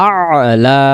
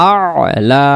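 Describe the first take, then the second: The two takes are said the same way.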